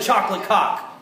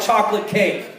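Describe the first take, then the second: First: The second word has a short 'o' vowel. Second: The second word has a long 'ay' vowel. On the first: The speaker calls it wrong. "Who cares if I said chocolate cock?" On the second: The speaker calls it right. "mispronouncing words like chocolate cake"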